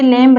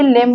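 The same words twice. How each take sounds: First: लेम्ब with the final b sounded; wrong pronunciation. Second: लेम ending on m, b silent; correct pronunciation. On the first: Teacher showing students the wrong लेम्ब. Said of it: "लेम्ब नहीं बोलेंगे". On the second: Teacher giving students the right लेम. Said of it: "लेम बोलेंगे". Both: Shown as a demonstration.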